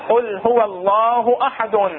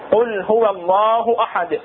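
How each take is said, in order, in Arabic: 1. تنتهي الكلمة الأخيرة بنون زائدة. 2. تقف الكلمة الأخيرة بدون نون في آخرها. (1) "بالوصل شو نقول؟" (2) "بالقطع بالوقف"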